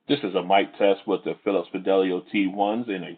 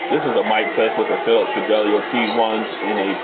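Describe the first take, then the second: First: The voice has little background noise behind it. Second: The voice has crowd noise behind it. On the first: "in a quiet location" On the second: "in a crowded location"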